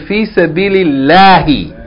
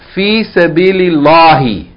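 First: The l in Allah is light and thin. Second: The l in Allah is heavy and dark. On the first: The speaker calls it right. "you have to pronounce it with tarqiq, light" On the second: The speaker calls it wrong. "You don't say fi sabilillahi"

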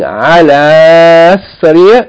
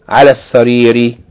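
First: The vowel ending the first word is long. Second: The vowel ending the first word is short. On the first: The speaker calls it wrong. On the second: The speaker calls it right. "we're going to make it short"

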